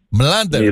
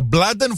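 First: The name begins with m directly followed by l. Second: The name begins with a b sound before l. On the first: The speaker calls it right. "Είναι Μλάντεν, δηλαδή με μη και λάμδα" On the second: The speaker calls it wrong. "Εντελώς λάθος"

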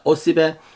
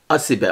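First: The first vowel is pronounced as a clear o. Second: The first vowel is pronounced as a clear a. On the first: This is how some regions say it. "Bazı yörelerde osibe" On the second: This is how other regions say it. "bazı yörelerde ise asibe olarak telaffuz ediliyor"

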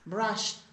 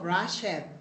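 First: The ending is a clear T sound, no extra syllable. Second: The ending is an extra syllable after the verb. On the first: The speaker calls it right. "it is pronounced with a letter T" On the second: The speaker calls it wrong. "No digo brushed"

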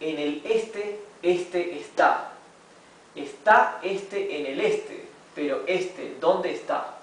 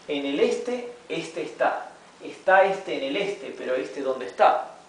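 First: The sentence is read at a slow pace. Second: The sentence is read at a moderate pace. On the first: "vamos a leerlo primero despacio" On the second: "gradually we'll be reading faster"

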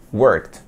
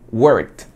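First: The ending is pronounced as a t sound. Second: The same.

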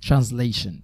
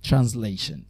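The two takes are said the same way.

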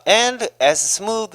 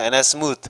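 First: "And as" is said as two clear words. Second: "And as" blends into one short reduced sound. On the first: "저처럼 이렇게 깔끔하게" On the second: "미국 사람들은 워낙 발음이 좋으니까"

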